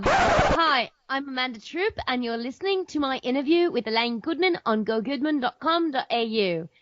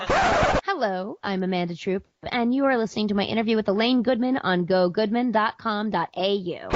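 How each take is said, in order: First: Attempted Australian accent that slides toward British; a shaky try at an Australian accent. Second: Said in the usual way. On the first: Podcaster copying an Australian accent for the intro. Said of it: "Say it in an Australian accent". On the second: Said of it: "I can't do it anymore".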